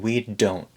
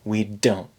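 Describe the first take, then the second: The two takes are said the same way.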